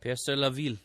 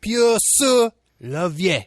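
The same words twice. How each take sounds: First: Peur sur la ville said with a proper final ville; corrected French pronunciation; French title. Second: Peur sur la vie said slow and high, mangled French, vie for ville; a clumsy attempt at French; French title attempt. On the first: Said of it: "Oh, you're right, actually". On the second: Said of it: "I'm not good at accents". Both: Shown as a demonstration.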